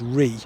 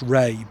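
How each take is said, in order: First: The name rhymes with 'see'. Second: The name rhymes with 'day'. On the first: The older pronunciation shown by old spellings. The speaker calls it right. "according to my research, the pronunciation of this brook is Ree" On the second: A newer pronunciation borrowed from another river. The speaker calls it wrong. "I know a few people are going to tell me that it's pronounced Ray"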